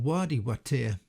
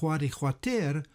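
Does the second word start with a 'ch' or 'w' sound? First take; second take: w; ch. First: The second word starts with a plain 'w' sound. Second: The second word starts with a throaty 'ch' sound. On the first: This is the usual modern form of the name. "rather than the conventional" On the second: This is the older, original form of the name. "why I am pronouncing the name of this wadi as"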